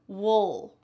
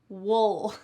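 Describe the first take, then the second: First: The word has a swallowed, reduced vowel sound. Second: The same.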